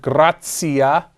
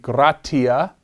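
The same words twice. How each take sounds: First: The word has the ecclesiastical Latin pronunciation. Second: The word has the classical Latin pronunciation. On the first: "That's the ecclesiastical pronunciation of that word" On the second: "The classical pronunciation would be gratia"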